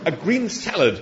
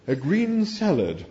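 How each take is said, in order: First: "A green salad" high and firm, falling at the end; emphatic. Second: Slow, drawn-out, disdainful repeat; disapproving echo. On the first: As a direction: insist on "A green salad", pitch jumping on green. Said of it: "said Arthur emphatically". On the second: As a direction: stretch it out with raised pitch, disapproving. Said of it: "rolling its eyes disapprovingly". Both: A narrator's reading.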